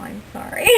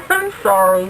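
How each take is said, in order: First: Said in the usual way. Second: "I'm sorry" louder, through laughter; sorry mid-laugh; laughing apology. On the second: Real, not acted. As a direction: apologise while still giggling. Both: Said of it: "I'm very distracted now".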